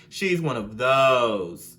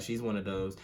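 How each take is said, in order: First: She's one of those drawn out slowly and louder; slow, drawn-out emphasis. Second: Said in the usual way. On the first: Shown as a demonstration. Telling viewers about her messy friend, slow and emphatic.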